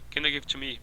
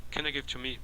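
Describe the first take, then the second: First: The small words are reduced to schwa. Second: The small words are reduced to schwa.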